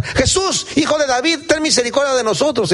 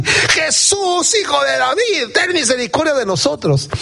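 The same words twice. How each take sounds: First: High-pitched mock shout for help; acted shouting. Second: Very high, hammed-up desperate yell; frantic shouting. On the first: Blind men start yelling for Jesus, crying out. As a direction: call out urgently, voice pitched high. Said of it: "Y empiezan a gritar". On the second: Blind men getting more worked up, acted yelling. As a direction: wail it out higher, stretching the name. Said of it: "se aceleraron más".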